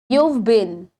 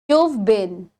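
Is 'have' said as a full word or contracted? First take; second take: contracted; contracted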